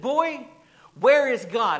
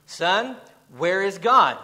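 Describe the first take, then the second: First: Loud, high stern demand, finger wagging; raised voice. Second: Sterner and louder, pressing the question; a firm rebuke, voice rising; more stern tone. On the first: Preacher retelling the clergyman shouting at the boy, loud and high. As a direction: bark the question at the boy. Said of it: "raised his voice even more". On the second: Preacher retelling the clergyman pressing the boy, sterner. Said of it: "with a little more stern tone". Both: Retold or imitated.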